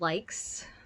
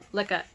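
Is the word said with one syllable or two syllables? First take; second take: one syllable; two syllables. First: It is said in one syllable, like English 'likes'. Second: It is said in two syllables, ending in a vowel. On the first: The speaker calls it wrong. "a lot of people call them likes. That's not the word" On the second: The speaker calls it right. "Lika is how you say it"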